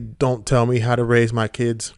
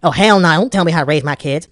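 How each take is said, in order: First: It is said in the speaker's normal voice. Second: It is said in a mocking put-on voice.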